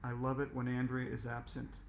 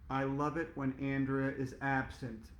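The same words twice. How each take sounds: First: It is muttered quietly under the breath. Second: It is said a little louder.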